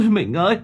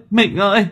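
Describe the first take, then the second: First: High wailing call to her dead husband; grieving wife's wail; wailing cry. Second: High wail, pushed harder; louder wailing cry. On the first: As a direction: cry his name high and broken. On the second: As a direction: call him again, more desperate. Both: Acted. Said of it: "đã gào khóc".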